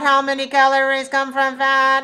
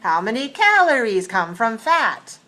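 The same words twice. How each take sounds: First: The pitch stays flat throughout. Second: The pitch moves with clear question intonation. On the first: The speaker calls it wrong. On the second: The speaker calls it right.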